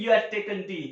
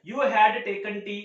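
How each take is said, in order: First: "you had" merged as you'd, h dropped; contraction. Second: Said in the usual way. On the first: Shown as a demonstration. Teacher shows the simpler way to say it, "you had" contracted. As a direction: run "you had" together without the H. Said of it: "आप simply बोल सकते हैं". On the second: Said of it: "इसकी pronunciation होगी".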